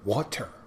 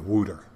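First: It is said with a clear T sound. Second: It is said like 'wooter', Philadelphia style.

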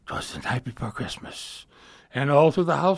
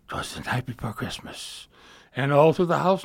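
First: It is delivered expressively like telling a story. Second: It is delivered expressively like telling a story.

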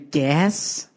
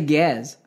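First: The word ends with a hissing s sound. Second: The word ends with a buzzing z sound. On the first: The speaker calls it right. "So it should be gas like that" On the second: The speaker calls it wrong. "you're giving it a Z at the end"

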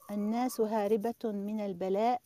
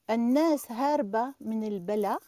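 First: It is said in Standard Arabic pronunciation. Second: It is said in Algerian dialect pronunciation. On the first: "I'll say it in Algerian and Fusha" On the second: "There's a hamza missing here. We don't pronounce it"

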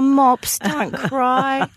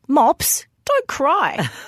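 First: The voice sounds gentle and sympathetic. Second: The voice sounds curt and impatient. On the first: The speaker is comforting the person crying. "Not, "Oh, Mops, don't cry."" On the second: The speaker wants the crying to stop. "she turns to me in this tone of voice"

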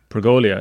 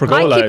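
First: The word ends with an extra 'ee' sound, '-lia'. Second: The word ends plainly with '-la'. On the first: The speaker calls it wrong. "no I in Pergola" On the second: The speaker calls it right. "It's just Pergola"

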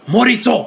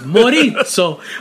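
First: It is said the Japanese way. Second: It is said the Italian way.

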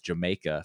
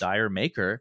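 First: It is said like the word 'Jamaica'. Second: It is said like the words 'dire maker'. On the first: The speaker calls it right. "it's actually pronounced Jamaica" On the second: The speaker calls it wrong. "that most people mispronounce"

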